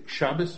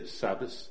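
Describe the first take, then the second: First: The word begins with an sh sound. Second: The word begins with a plain s sound. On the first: This is how other dialects say it. "ikke shabbes" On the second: This is how the Lithuanian dialect says it. "man siger sabbes"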